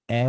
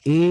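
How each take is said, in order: First: এ opened to "æ" as in cat; wrong vowel. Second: এ as a pure close "e"; correct vowel. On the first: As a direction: say এ as a wide "æ". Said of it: "রূপে উচ্চারিত হবে না". (এ-কে "অ্যা" বলে উচ্চারণ) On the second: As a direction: say এ clearly as "e". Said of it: "এ হিসেবে উচ্চারিত হবে". (এ-র খাঁটি "এ" উচ্চারণ) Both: Shown as a demonstration.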